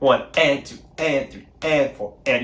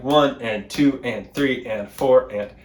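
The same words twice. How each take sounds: First: The ands carry the stress. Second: The numbers carry the stress.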